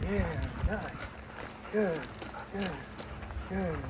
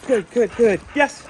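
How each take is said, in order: First: Soft, easy praise to settle the dog; calm praise. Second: Loud, high burst of praise; excited praise. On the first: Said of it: "slow, calm obedience session". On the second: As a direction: reward the dog with a big happy cheer. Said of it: "get excited and get their reward". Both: Real, not acted.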